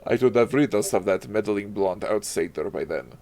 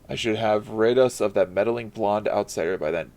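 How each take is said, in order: First: It is read imitating Azaric's voice. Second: It is read in the speaker's normal voice.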